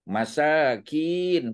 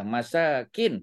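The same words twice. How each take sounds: First: The final vowel is drawn out long. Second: The final vowel is kept short. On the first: It means poor people. "Masakin panjang tadi kan" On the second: It means dwelling places. "masakin pendek aja"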